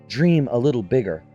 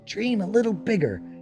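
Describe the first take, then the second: First: It is said in Zariel's voice. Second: It is said in Lulu's voice.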